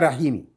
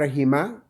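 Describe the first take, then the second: First: The word ends with an added i vowel. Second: The word ends with an added a vowel. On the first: "On ne dit pas rahimi" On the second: "on ne dit pas rahima"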